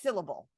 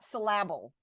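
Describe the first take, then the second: First: The stress falls on the first syllable. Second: The stress falls on the second syllable. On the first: The speaker calls it right. "it's syllable" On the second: The speaker calls it wrong. "The word is not syllable"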